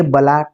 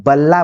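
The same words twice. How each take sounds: First: बला with a short, single l; short consonant. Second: बल्ला with a long, held double l; lengthened consonant. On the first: Teacher contrasting word lengths for students, बला with short l. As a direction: say बला with one quick l. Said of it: "बला के स्थान पर जब बल्ला बोल रहे". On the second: Teacher showing added length, बल्ला with lengthened l. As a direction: hold the l in बल्ला. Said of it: "उसकी लेंथ में बढ़ोतरी हो रही है". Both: Shown as a demonstration.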